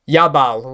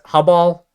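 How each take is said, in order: First: The name begins with a Y sound. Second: The name begins with an H sound. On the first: This follows a northern European reading of the letter J. "which would be how uh, Norse people would translate a J" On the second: This follows the original language's pronunciation. "I think that would be the Hebrew way to say it"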